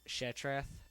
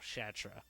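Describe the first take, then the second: First: The name ends with a 'th' sound. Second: The name ends without a 'th' sound. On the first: "I could see where she could come up with Shatrath" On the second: "the T was silent, so it just came out Shatra"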